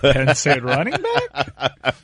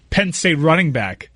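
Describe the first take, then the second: First: It is asked as a question, rising. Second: It is said as a statement, falling.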